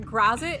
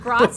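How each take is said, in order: First: The name rhymes with Cheez It. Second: The name does not rhyme with Cheez It. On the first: The speaker calls it wrong. "The Grazit is like Cheez It" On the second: The speaker calls it right. "Gratz is so much better"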